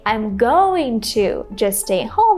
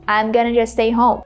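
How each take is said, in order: First: "Going to" is said fully as two words. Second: "Going to" is reduced to one short word. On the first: "Instead of saying" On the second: "you can say I'm gonna"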